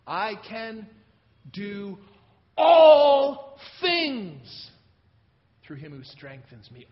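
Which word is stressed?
all. The word 'all' is stressed. It covers everything, not just some things. "All things, not some things or a few"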